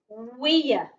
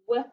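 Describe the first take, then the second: First: The vowel sounds like the word ear. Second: The vowel sounds like the word air. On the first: The speaker calls it wrong. "W, ear, weir ... That doesn't sound right" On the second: The speaker calls it right. "can also make an air sound"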